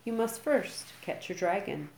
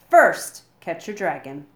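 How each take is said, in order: First: Said in the usual way. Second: Loud announcement. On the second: A narrator's reading. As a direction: blast the first word after the pause. Gobber's dramatic big announcement.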